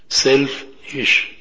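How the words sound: The word is split into self and ish. Working for the good of one's own soul. The speaker calls it right. "Separate it"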